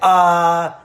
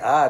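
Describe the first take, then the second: First: The filler sound is shouted very loudly. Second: The filler sound is said quietly and softly. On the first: "like they like scream it really loud" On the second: "they don't say uh"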